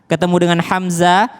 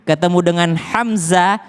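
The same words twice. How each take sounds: No difference in how they are said.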